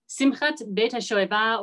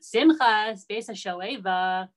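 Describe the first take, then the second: First: It is said with a standard Hebrew accent. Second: It is said with an Ashkenazi, Polish-Brooklyn accent.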